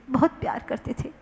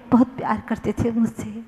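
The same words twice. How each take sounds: First: Quick whispered repeat of बहुत प्यार करते थे; whispered echo. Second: Said in the usual way. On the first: Shown as a demonstration. Preacher echoes the loving uncle line, whispered. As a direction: breathe बहुत प्यार करते थे fast and soft. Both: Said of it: "repeated as a whisper".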